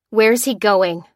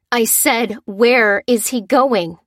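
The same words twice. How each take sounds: First: Loud, forceful question; demanding cry. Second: Slow, loud, menacing repeat; through gritted teeth. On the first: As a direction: demand an answer from the captive. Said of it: "cried Lucy". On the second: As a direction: grind each word out, losing patience. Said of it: "repeated Lucy through gritted teeth". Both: Acted.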